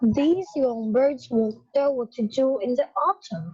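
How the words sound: It is read in a deepened, manly voice.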